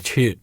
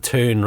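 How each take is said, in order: First: It is said with a British pronunciation. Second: It is said with an American pronunciation. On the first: "rather than a tune" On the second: "in America, it is a tune"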